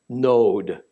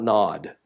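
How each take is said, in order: First: It has a long o, like node. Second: It sounds like the English word nod. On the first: The speaker calls it right. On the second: The speaker calls it wrong.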